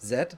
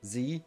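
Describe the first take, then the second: First: The letter name does not rhyme with 'me'. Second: The letter name rhymes with 'me'. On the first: It is the non-American way of saying it. The speaker calls it right. "instead of Z" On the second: It is the American way of saying it. The speaker calls it wrong. "the reason why Americans say Z"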